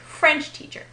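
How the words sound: The stress falls on the first word. Someone who teaches French. "Notice the stress on the first word"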